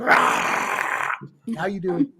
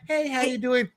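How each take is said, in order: First: It is said in an angry, explosive tone. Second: It is said in a calm, friendly tone.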